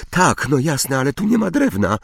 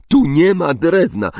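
First: High, hurried, flustered cry; high-pitched outburst at moderate volume. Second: High, loud mimicry of her cry; exaggerated squeal of mock panic; mocking imitation. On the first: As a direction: exclaim in rising panic, quickening. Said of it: "krzyknęła Hermiona". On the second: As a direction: parrot the panicked line to tease. Ron mockingly quotes Hermione's panicked cry. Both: A narrator's reading.

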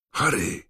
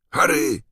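First: Raised call from behind a wall; first call, high and carrying; calling through a wall. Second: Second call, high and louder; louder call through a wall. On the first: Weasleys call Harry through the wall, raised call. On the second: Weasleys call Harry again through the wall, louder shout. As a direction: shout it harder the second time. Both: Acted. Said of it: "załomotał pięściami w ściankę".

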